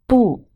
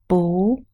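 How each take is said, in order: First: The word is said with a falling tone. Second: The word is said with a rising tone. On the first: "It is pronounced as the fourth tone" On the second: "it is pronounced as the second tone"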